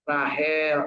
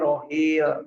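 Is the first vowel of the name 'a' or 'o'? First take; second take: a; o. First: The name is said with vowels 'a' and 'e'. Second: The name is said with vowels 'o' and 'i'. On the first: This is the usual local form of the name. "namanya Rahel" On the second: This is how people from that region say it. "Orang sana nyebutnya ke Rohil"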